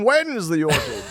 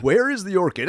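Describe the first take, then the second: First: "when" leaned on, pitched high; puzzled question hitting WHEN high; mock-baffled topper, punch the word "when"; stress on WHEN. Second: "where" leaned on, pitched up; puzzled question hitting WHERE high; mock-baffled, punch the word "where"; stress on WHERE. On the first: Contrasts when with where. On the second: Contrasts where with when.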